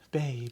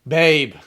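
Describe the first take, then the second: First: It is said in a plain neutral tone. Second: It is said with a little attitude.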